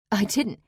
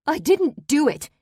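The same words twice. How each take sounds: First: Said in the usual way. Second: Much higher, loud, near hysteria; enraged, fearful shout. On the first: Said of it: "My loud voice filled the room". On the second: Acted. Parolee denies the murder to the daughter, loud hysterical shout. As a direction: yell the denial on the edge of hysteria. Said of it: "My loud voice filled the room, enraged, fearful, on the edge of hysteria".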